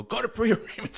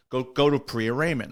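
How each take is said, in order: First: High-pitched imitation of a barking officer; barked order. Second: Said in the usual way. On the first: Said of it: "So they bark at me".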